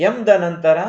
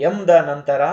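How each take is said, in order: The two takes are said the same way.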